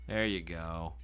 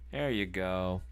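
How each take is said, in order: Both takes have the same delivery.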